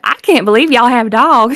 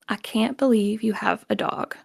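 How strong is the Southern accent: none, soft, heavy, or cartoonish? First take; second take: cartoonish; none. First: It has a cartoony Southern accent, pitch swooping up and down. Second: It is said in standard American, no accent.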